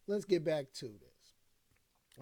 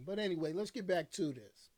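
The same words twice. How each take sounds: First: "Let's get back to this" stretched out slowly, every word drawn long; slow, drawn-out repeat. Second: Said in the usual way. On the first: Shown as a demonstration. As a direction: slowly drag out "Let's get back to this" to pull the stream back on track.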